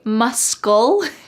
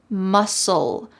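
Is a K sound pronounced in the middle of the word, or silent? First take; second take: pronounced; silent. First: A K sound is pronounced in the middle. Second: No K sound is heard in the middle. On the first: The speaker calls it wrong. "Do not say muscle" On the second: The speaker calls it right. "the C in the word muscle is silent"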